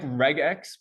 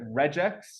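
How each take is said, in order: First: The g is hard, like in regular. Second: The g is soft, like a j. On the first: It matches how the word regular is said. The speaker calls it right. "I like regex much better because it's a regular expression" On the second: Many people say it this way. The speaker calls it wrong. "lots of people here pronounce it regex"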